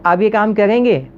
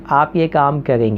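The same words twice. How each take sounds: First: The pitch goes up, like a question. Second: It is said in a flat tone.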